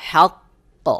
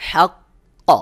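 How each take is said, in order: The two takes are said the same way.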